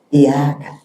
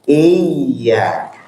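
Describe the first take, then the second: First: The y sound is short and single. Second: The y sound is held long and doubled. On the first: The speaker calls it wrong. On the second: The speaker calls it right. "Yang betul adalah iya"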